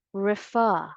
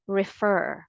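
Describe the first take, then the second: First: "refer" as rih-FAH, final r dropped; British pronunciation. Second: "refer" as rih-FUR, final r sounded; American pronunciation. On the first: Teacher allowing the British form, "refer" as rih-FAH. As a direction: stress an open FAH ending in "refer". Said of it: "use the British English pronunciation". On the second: Teacher giving own preferred form, American "refer", rih-FUR. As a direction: stress the r-coloured ending of "refer". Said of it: "using the American English pronunciation". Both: Shown as a demonstration.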